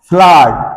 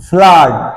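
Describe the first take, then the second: The two takes are said the same way.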